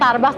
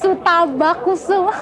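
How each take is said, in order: First: It is said with English-style pronunciation. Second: It is said with Japanese-style syllables.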